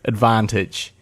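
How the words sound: It is said in an English accent.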